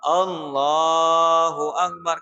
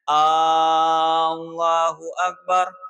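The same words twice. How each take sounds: First: The l sound in Allahu is drawn out long. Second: The opening A sound is drawn out long. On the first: The speaker calls it right. "kan lamnya yang dipanjangkan" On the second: The speaker calls it wrong. "tidak boleh memanjangkan lapas hamzahnya"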